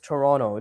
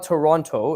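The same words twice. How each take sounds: First: The second t is dropped. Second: The second t is clearly pronounced. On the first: The speaker calls it right. "We don't pronounce the T" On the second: The speaker calls it wrong. "It's not Toronto"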